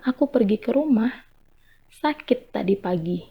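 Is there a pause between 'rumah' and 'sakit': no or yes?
yes. A pause separates rumah from sakit. The speaker went home because of being sick this morning. "di sini artinya sudah lain lagi"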